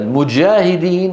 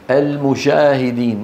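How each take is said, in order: First: The middle consonant sounds like j. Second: The middle consonant sounds like sh. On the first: The speaker calls it right. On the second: The speaker calls it wrong.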